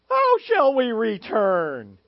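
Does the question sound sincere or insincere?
insincere. The question sounds insincere and defiant.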